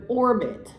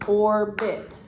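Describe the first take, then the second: First: Said in the usual way. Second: "orbit" broken into "or", then "bit"; split into syllables. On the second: Shown as a demonstration. Teacher showing a child the syllables, "orbit" split in two. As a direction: say "orbit" as two separate, even beats.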